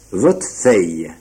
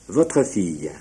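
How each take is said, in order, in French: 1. Le r de votre ne se prononce pas. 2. Le r de votre se prononce.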